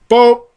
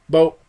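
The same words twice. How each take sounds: First: The word is said at a louder volume. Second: The word is said at a softer volume. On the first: "I would have to say it a little bit louder" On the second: "he would say it"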